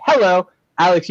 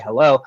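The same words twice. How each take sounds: First: HELLO in a put-on English accent; HELLO as an amateur English greeting. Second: Said in the usual way. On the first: Shown as a demonstration. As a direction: say HELLO higher, in mock English. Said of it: "say hello with an English accent". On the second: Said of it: "you can simply say".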